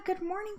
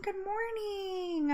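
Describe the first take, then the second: First: High, soft, lilting good morning; rising sing-song greeting. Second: High, soft, slow "good morning" falling away; drawn-out falling greeting. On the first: Greeting the chat, high soft rising good morning. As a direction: lift "Good morning" up high and softly at the end. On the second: Answering the chat again, slow soft falling good morning. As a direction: stretch "good morning" slowly and let it fall softly. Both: Real, not acted.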